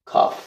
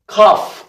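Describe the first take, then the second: First: "cough" said as a breathy, throaty "khaf"; soft khaf. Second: "cough" said as a crisp, hard "kʰaf"; hard kaph. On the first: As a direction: let "cough" start with a rasping kh from the throat. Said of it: "점이 없는 거는". ("cough"를 목에서 긁는 "하프"로) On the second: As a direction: clip the "cough" with a firm k. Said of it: "cough도 점이 있는 게 있고". ("cough"를 딱딱한 "카프"로) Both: Shown as a demonstration.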